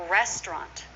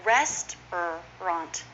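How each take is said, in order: First: "restaurant" as REST-rant; two syllables. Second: Slow "Restaurant", rest-er-ant, in separate parts; full three syllables. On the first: Teacher modelling for learners, "restaurant" shortened to rest-rant. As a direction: drop the middle vowel of "restaurant". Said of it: "Two syllables". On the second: Teacher showing the long form, "Restaurant" slowly in three syllables. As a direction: sound out the middle "er" of "Restaurant". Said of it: "is often". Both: Shown as a demonstration.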